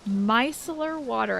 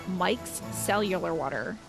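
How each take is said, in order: First: The first word sounds like 'micellar'. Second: The first word sounds like 'Mike's cellular'. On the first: The speaker calls it right. "I think is how you say it" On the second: The speaker calls it wrong. "I have to stop myself from saying Mike's cellular water"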